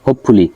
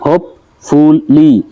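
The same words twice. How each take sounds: First: Said in the usual way. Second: হোপফুলি slowly split as হোপ, ফুল, লি; three drawn-out beats on হোপফুলি; syllable by syllable. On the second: Shown as a demonstration. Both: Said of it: "এখানে তিনটা syllable দেওয়া আছে".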